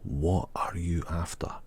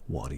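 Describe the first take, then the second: First: Every word is said clearly and fully. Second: The words are shortened and run together.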